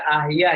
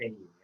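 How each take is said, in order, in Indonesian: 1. Kata ini diawali dengan vokal 'ah'. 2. Kata ini diawali dengan vokal 'eh'. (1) "maksud Bapak harusnya dibaca ahya ya?" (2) "langsung baca eh ya"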